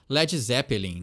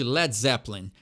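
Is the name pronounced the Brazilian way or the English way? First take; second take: Brazilian; English. First: It is pronounced the Brazilian Portuguese way. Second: It is pronounced the English way. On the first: The speaker calls it wrong. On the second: The speaker calls it right.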